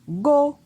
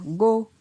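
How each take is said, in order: First: The syllable is said on a high tone. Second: The syllable is said on a mid tone. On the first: "Un ton haut" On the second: "Un ton moyen"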